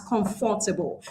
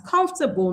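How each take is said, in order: First: "comfortable" as com-FOR-ta-ble, with a full FOR; four-syllable comfortable. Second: "comfortable" as COMF-tuh-bl, stressed on the first syllable; three-syllable comfortable. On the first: Teacher showing learners the error, "comfortable" as com-FOR-ta-ble. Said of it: "not as comfortable". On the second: Teacher modelling English for learners, "comfortable" as COMF-tuh-bl. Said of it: "So we pronounce it as". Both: Shown as a demonstration.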